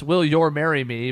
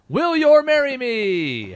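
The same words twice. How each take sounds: First: It is said as a rising question. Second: It is said as an emphatic exclamation.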